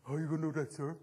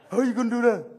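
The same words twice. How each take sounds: First: A mildly imitated schoolkid, pitch dropped low and a bit softer; mock a kid challenging the teacher, low and sullen; cheeky kid voice. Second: A mildly imitated schoolkid, louder and more challenging; cheeky kid voice, louder. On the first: Speaker imitating young kids questioning him, lightly mocking. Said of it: "And you know how they talk". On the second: Speaker imitating young kids, louder mock challenge. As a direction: throw the question back like a defiant kid. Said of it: "'Cause that's how they talk".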